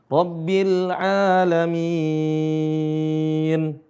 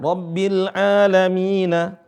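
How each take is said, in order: First: The phrase ends on a bare final n. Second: The phrase ends with a final vowel a. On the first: The reciter stops at the end of the verse. "karena ada waqaf, maka huruf terakhir itu jadi sukun" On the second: The recitation continues without stopping. "Sebenarnya alamina"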